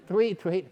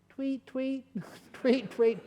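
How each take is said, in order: First: Bird sound retry. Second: Bad bird sounds. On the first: Retold or imitated. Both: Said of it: "I can't do bird sounds".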